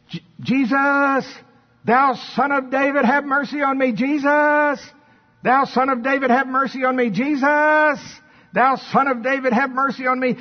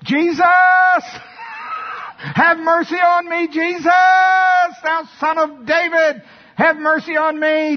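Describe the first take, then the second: First: High, sustained beggar's cry; blind man crying out. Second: Full-force high-pitched shout; desperate bellow at the top of the voice; defiant crying out. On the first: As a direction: call insistently over a crowd for mercy. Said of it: "And so he started going". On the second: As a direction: scream for mercy, refusing to be hushed. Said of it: "So th-, this was his reaction". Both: Acted.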